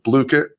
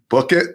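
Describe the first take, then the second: First: The first syllable rhymes with Luke. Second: The first syllable rhymes with book. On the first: The speaker calls it right. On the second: The speaker calls it wrong.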